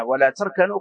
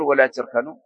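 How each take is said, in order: First: تركنوا with an "a" after the t; standard fatha reading. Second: تركنوا with an "i" after the t; kasra reading. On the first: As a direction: say تركنوا as "tarkanu". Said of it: "ذلك الذي قرئ بغير الكسر". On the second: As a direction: say تركنوا as "tirkanu". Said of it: "إذن بالكسر تقول". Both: Shown as a demonstration.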